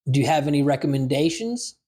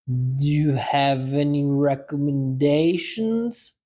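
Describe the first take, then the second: First: It is said at a normal conversational speed. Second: It is said slowly and deliberately. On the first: "First time, normal speed" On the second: "Second time, slow"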